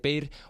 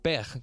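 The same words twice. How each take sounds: First: The name is pronounced the Spanish way. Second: The name is pronounced the French way.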